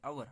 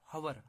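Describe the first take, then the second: First: The word begins with a vowel, no h sound. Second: The word begins with an audible h sound. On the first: The speaker calls it right. "आवर बोलते हैं" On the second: The speaker calls it wrong. "हम ये नहीं बोलते हवर"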